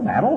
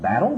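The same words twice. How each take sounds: First: Battle? pitched much higher, a disbelieving question; incredulous echo. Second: Said in the usual way. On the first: Shown as a demonstration. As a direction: throw Battle? back in disbelief. Mocking echo of brother's word.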